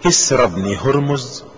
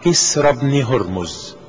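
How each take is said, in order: First: كسرى بن هرمز as a question, ending held up after a dip. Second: كسرى بن هرمز as a statement, falling at the end; confirming statement. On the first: Adi asks the Prophet to confirm which Kisra, questioning. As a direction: read كسرى بن هرمز questioningly, leaving the last word hanging. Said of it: "قلت". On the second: The Prophet answers Adi's question about Kisra, confirming statement. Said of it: "قال". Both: A narrator's reading.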